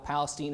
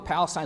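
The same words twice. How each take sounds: First: It is pronounced the East Texas way. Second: It is pronounced the biblical way. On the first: It refers to a town in East Texas. "Palestine is that place in East Texas" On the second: It refers to the land in the Bible. "Probably Palestine is how we're going to pronounce it in the Bible"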